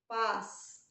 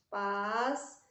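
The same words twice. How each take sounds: First: Pas-sa-do said syllable by syllable; teacher syllabifying Pas-sa-do; split into syllables. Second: Pas-sa-do chopped into syllables, rising at the end; slow syllable split of pas-sa-do; syllables again. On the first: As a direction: break Pas-sa-do into three clear beats. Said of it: "a primeira sílaba dela é P A S". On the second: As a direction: separate pas-sa-do beat by beat. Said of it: "o S S e o R R ... vão sempre se separar". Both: Shown as a demonstration.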